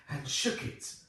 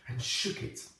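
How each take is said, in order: Both takes have the same delivery.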